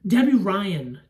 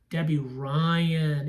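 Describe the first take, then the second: First: Said in the usual way. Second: "Debbie Ryan" drawn out slowly; slow repeat. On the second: Real, not acted. Reviewer slowly repeating the actress's name she just recalled.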